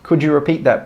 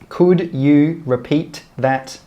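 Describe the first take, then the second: First: The words are joined and final sounds cut off. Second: Each word is said fully and separately.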